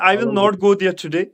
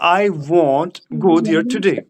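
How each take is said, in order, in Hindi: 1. 'will not' शब्दों को पूरा बोला जाता है। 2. 'will not' को संक्षिप्त करके 'won't' बोला जाता है। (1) "हम इस तरह बोलेंगे" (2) "विल एंड नॉट वहां पर वॉन्ट बन जाता है"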